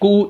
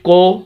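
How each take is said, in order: First: The syllable has an 'oo' vowel. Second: The syllable has an 'oh' vowel. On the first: The speaker calls it right. "इसका सही तलफ़्फ़ुज़ है" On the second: The speaker calls it wrong. "अब इसको कोई पढ़े काफ पेश को"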